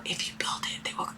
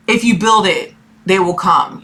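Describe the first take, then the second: First: Hushed movie-voice whisper; near-silent whispered quote. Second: Said in the usual way. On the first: Retold or imitated. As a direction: breathe it like the ghostly voice in the cornfield. Repeating the movie line whispered.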